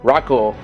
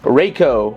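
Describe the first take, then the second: First: The name is said with Japanese-style sounds. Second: The name is said with English-style sounds. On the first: The speaker calls it right. "the actual Japanese pronunciation in the second one" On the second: The speaker calls it wrong. "my poor pronunciation from before"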